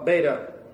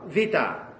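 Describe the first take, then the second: First: The word begins with a B sound. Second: The word begins with a V sound. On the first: The speaker calls it wrong. "So it's not alpha, beta" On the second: The speaker calls it right. "This is not a B sound, it's a V sound, like vita"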